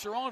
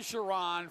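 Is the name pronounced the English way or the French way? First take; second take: French; English. First: The name is pronounced the French Canadian way. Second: The name is pronounced the English way. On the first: "the French Canadian pronunciation" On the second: "the English pronunciation"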